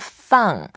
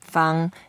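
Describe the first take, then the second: First: The word is said with a falling tone. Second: The word is not said with a falling tone. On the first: It means to put down or release something. "when you say fourth tone, feng" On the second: It means square. "when you say feng, that means square"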